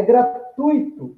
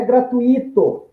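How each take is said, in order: First: Gratuito said as gra-TUI-to, the ui one gliding diphthong; correct gratuito. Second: Gratuito said as gra-tu-Í-to, a separate stressed I; wrong gratuito. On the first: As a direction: say gratuito with stress on the U and a glided I. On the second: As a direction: split gratuito into four syllables, hitting the I. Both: Shown as a demonstration. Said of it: "é gratuito, não é gratuito".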